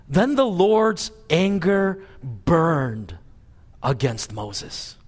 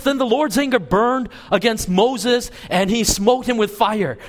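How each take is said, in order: First: Slow and grave, letting each word land; heavy slow reading of the verse; slow solemn scripture reading. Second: Higher, hammed-up dramatic misreading; hammed-up preacher's wrong version; mock fire and brimstone. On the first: Shown as a demonstration. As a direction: read the verse slowly and soberly. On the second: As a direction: fake a thundering wrathful verse for effect. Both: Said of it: "No, it doesn't say that".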